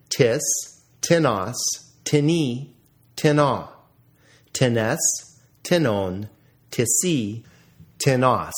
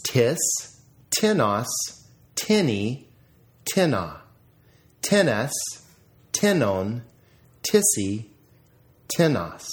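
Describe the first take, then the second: First: TiNOS, tinNY, tinNA, punched on the final syllable; stress on second syllable. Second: TINnos, TINny, TINna, punched on the opening syllable; stress on first syllable. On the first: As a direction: recite each form leaning on its second syllable, as in tinNON, tisSY. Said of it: "notice the accent on the second syllable". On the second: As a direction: recite each form with the first syllable stressed, as in TINnon, TISsy. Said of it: "accent mark on the first syllable". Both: Shown as a demonstration.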